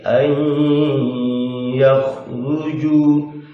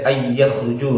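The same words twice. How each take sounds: First: The nasal hum is held long through the nose. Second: The nasal hum is short and not held. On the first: The speaker calls it right. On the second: The speaker calls it wrong. "tidak boleh ay yakhruju, nggak boleh"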